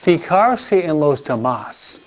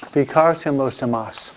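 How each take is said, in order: First: Slow, each word laid out carefully; slow teaching emphasis on fijarse; slow and deliberate. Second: Said in the usual way. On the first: Shown as a demonstration. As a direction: spell it out slowly for the listeners.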